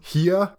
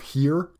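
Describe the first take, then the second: First: It is said in a Boston-like accent. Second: It is said in a neutral accent.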